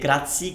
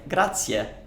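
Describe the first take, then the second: First: The word is pronounced carelessly, without Italian vowels. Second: The word is pronounced carefully, with Italian vowels. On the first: The speaker calls it wrong. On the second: The speaker calls it right.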